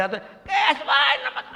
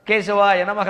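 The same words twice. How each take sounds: First: కేశవాయ నమః mumbled high and very slow, words blurred with a laugh; mock a dry-throated man mangling కేశవాయ నమః into mush; garbled mantra. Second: Said in the usual way. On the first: Shown as a demonstration. Preacher mocks a worshipper skipping ఆచమనం: slurred, laughing, slow. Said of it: "వాడు ఏమన్నాడో తెలియదు". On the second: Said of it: "ఉచ్చారణ స్పష్టంగా".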